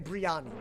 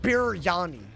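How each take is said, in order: First: The word is said with its syllables shortened. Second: The word is said with all its syllables. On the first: "I would say Briani" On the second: "it's not Biryani. Even though it's spelled that way"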